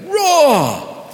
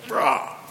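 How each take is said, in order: First: The roar is somewhat louder. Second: The roar is fairly soft.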